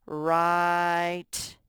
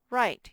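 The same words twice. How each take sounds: First: "Right" stretched out long and loud; long loud model word. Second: "Right" clipped short and higher; short high model word. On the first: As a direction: draw out "Right" so the I says its name. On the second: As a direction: snap "Right" out quick and bright. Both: Shown as a demonstration. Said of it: "make the I say its name".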